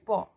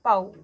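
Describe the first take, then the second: First: The vowel sounds like 'aw' in saw. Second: The vowel sounds like 'ow' in cow. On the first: The speaker calls it right. "it's paw" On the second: The speaker calls it wrong. "It's not pow"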